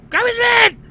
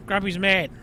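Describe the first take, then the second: First: High, loud hammed-up angry yell; comic burst of rage, pitched right up; mad shout. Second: Said in the usual way. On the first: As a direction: yell it like a grump losing his temper.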